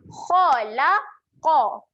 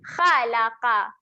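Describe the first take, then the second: First: The kh and q are pronounced thick and heavy. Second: The kh and q are pronounced thin and light. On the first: The speaker calls it right. "huruf kha berbaris atas bunyi dia adalah kha" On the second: The speaker calls it wrong. "bunyi yang salah kita nipiskan bunyi huruf-huruf yang tebal"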